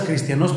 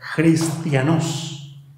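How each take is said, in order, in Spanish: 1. La palabra empieza con un sonido k simple. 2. La palabra empieza con un sonido h áspero y gutural. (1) "como si dijeras cristianos" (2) "pero con J"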